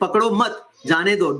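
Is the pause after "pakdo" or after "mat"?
after mat. The pause comes after "mat".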